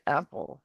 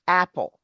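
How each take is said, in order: First: "apple" soft, with a barely opened first vowel; closed-mouth wrong way. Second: "Apple" with a wide-open first vowel. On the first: Teacher showing what doesn't work, small closed-mouth "apple". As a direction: keep the mouth nearly shut on "apple". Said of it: "You can't say it". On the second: Teacher showing how far the mouth opens, wide "Apple". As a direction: drop the jaw for the A in "Apple". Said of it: "far I'm opening my mouth". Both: Shown as a demonstration.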